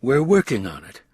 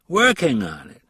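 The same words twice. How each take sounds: First: Said in the usual way. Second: A skeptical repeat of "Working on it?", louder; skeptical echo. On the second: A narrator's reading. Green mocks Ross's answer, skeptical echo of "Working on it?". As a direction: throw "Working on it?" back, doubting it.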